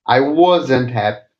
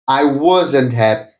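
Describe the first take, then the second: No difference in how they are said.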